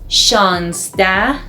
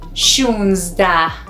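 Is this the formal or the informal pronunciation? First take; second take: formal; informal. First: It uses the formal, written-style pronunciation. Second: It uses the informal, everyday pronunciation. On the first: It suits academic or written language. The speaker calls it wrong. "Formal is" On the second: It suits everyday speech. The speaker calls it right. "informal or everyday speaking"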